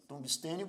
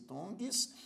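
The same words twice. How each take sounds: First: Said in the usual way. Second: "tungstênio" split as tungs, tê, nio; syllable by syllable. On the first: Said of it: "você divide assim". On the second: Shown as a demonstration. Teacher demonstrating division to learners, "tungstênio" broken into separate syllables. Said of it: "Tungstênio você divide assim".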